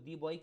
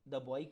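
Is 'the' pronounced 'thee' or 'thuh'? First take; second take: thee; thuh. First: 'The' is said with a long 'thee' vowel. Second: 'The' is said with a short 'thuh' vowel. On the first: The speaker calls it wrong. "दी boy क्यों नहीं बोला" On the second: The speaker calls it right. "द boy क्यों बोला इसको"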